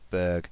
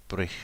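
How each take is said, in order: First: The ending is said with an English sound. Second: The ending is said with a Swedish sound. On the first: The speaker calls it wrong. "rather than a Berg in Swedish" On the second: The speaker calls it right. "I think it's more of a Brich or something at the end"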